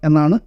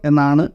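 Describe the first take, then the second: The two takes are said the same way.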